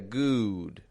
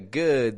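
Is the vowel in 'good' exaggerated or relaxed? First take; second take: exaggerated; relaxed. First: The vowel is a long rounded ooh sound. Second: The vowel is short and relaxed, lips unrounded. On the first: The speaker calls it wrong. "exaggerate the pronunciation of that sound" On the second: The speaker calls it right. "instead of getting a good"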